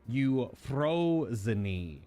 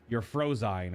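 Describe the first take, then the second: First: Every vowel is sounded with its consonant. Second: Vowels are merged into a short English form. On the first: "Every vowel is combined with the, the consonants" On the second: "if you pronounce it in English"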